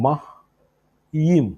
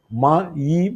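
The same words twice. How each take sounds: First: മയീം broken into mah, pause, yeem; syllable by syllable. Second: മയീം as one slow word, ma-yeem; said joined together. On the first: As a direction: say മയീം very slowly in two separate parts. (മയീം രണ്ടായി മുറിച്ച്, പതുക്കെ) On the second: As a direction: join the syllables of മയീം. (മയീം ഒരുമിച്ച് ചേർത്ത് ഉച്ചരിച്ച്) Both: Shown as a demonstration. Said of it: "ഒരുമിച്ച് പറയുമ്പോൾ".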